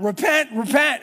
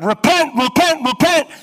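First: High, loud cry of repent; loud preacher's cry, rising at the end; prophet shouting. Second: Very loud, high ringing cry of repent; full-throated prophet's yell; desperate shout. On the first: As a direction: call it out like a prophet in the street. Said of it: "he continues to shout out". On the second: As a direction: bellow it up from the bottom of a well. Jeremiah shouting from the well. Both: Retold or imitated.

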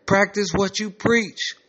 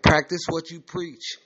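First: Higher, slower and insistent; raised voice. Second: Said in the usual way. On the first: Acted. [name] ranting to his roommate about the facility, voice raised. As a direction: raise the pitch and stretch it out. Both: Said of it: "[name]'s voice is raised".

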